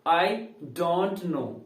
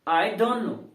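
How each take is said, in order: First: Every word is said fully and slowly. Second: The words run together with 'don't' reduced. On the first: The speaker calls it wrong. "बोलने में time लग रहा है ना" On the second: The speaker calls it right. "लेकिन आपको ये बोलना है"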